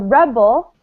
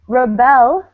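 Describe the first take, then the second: First: The stress is on the first syllable. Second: The stress is on the second syllable. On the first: It is the noun meaning a person who resists. "stress on the first syllable, is a noun" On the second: It is the verb meaning to resist authority. "stress on the second syllable, is a verb"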